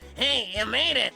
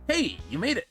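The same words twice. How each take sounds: First: It is said in a nerdy put-on voice. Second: It is said in his normal voice.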